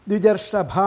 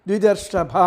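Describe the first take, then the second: No difference in how they are said.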